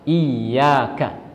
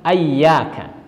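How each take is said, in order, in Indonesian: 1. Kata ini diawali dengan vokal i. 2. Kata ini diawali dengan vokal a. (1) "hamzah dengan berharokat kasrah" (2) "Ada juga yang membaca dengan ayyaka"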